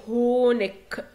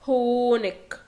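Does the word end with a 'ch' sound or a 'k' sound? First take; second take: k sound; k sound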